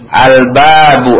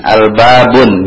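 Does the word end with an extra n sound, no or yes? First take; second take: no; yes. First: The word ends in a plain u vowel. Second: The word ends with an added n sound. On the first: The speaker calls it right. "baca dhammah" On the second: The speaker calls it wrong. "tidak ada yang membacanya dengan tanwin. Al-babun misalkan, ini salah"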